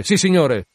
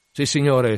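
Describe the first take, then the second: First: Higher, louder repeated yes; louder acknowledgment. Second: Raised, ready reply; acknowledging. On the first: Mate confirming the captain's order, louder reply. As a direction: shout it back with more force. Starbuck answers Ahab's order. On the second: Mate answering the captain's order, raised reply. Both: Acted.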